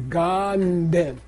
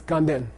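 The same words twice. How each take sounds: First: GANDEN slowly, humming the N into DEN; slow prenasal. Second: GANDEN run together as one quick word; said fast. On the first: Teacher demonstrates for class, slow drawn-out prenasal Ganden. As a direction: stretch "Ganden", the N leaning onto the second syllable. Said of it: "It's a prenasal". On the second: Teacher shows everyday result, fast joined-up Ganden. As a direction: say "Ganden" quickly, no break between syllables. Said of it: "when you say it fast". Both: Shown as a demonstration.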